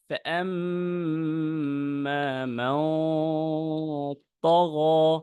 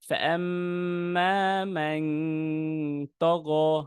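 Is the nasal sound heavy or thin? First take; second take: heavy; thin. First: The nasal sound is heavy and full. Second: The nasal sound is thin and light. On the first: The speaker calls it right. "তো আমার এখন এই উচ্চারণটা হবে মোটা।" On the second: The speaker calls it wrong. "আপনার এই সাউন্ড চিকন করার কারণে"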